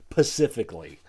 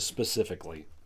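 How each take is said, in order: First: The word begins with a 'p' sound. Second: The word begins with an 's' sound. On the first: The speaker calls it wrong. "This one does the pacifically instead of specifically" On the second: The speaker calls it right. "instead of specifically"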